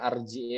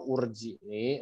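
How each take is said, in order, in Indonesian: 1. Kata ini diawali vokal a. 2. Kata ini diawali vokal u. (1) "kenapa enggak baca arji'i" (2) "atau urji'i"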